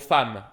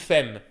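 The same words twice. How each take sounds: First: The vowel is said as an 'a' sound. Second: The vowel is said as an 'e' sound. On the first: "le mot femme" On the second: "j'ai aucun accent, mais j'ai mal prononcé"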